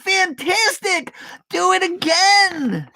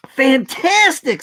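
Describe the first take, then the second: First: Mock shout. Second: Delighted princess. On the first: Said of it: "Elizabeth shouted". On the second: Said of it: "said Elizabeth". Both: A narrator's reading.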